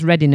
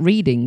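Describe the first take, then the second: First: The first vowel is short, like 'red'. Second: The first vowel is long, like 'reed'. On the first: This is how the town name is actually said. "Why is it pronounced Reading" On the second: This is how the name would be said from its spelling. "and not Reading? Because that's how it's written"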